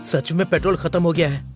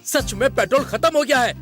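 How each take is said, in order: First: It is said in a dull, flat way. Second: It is said in a confident, assured way.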